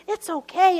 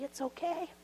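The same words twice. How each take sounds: First: Said in the usual way. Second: Much softer, gently rising reassurance. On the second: Shown as a demonstration. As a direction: hush it kindly.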